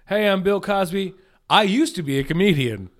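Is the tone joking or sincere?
joking. It is said in a joking tone.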